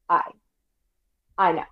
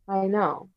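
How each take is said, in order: First: The voice starts abruptly with a hard attack. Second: The voice starts gently with a soft attack. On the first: The speaker calls it wrong. "Hard onset sounds like" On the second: The speaker calls it right. "soft onset is like"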